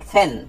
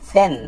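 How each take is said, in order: Both takes have the same delivery.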